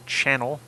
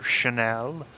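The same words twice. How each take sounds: First: "channel" stressed on the first syllable; usual pronunciation. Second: "Chanel" said shuh-NEL, stress on the end; French-style pronunciation. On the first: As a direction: say "channel" with CHAN up front. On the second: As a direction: say "Chanel" like the fashion house. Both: Shown as a demonstration. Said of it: "however you wanna pronounce it".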